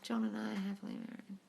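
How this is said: It is said with a sigh, sadly.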